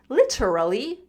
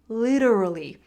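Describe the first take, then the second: First: The middle t is a clear t sound. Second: The middle t sounds like a quick d. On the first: "I pronounce the T not literally" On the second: "It's that D sound"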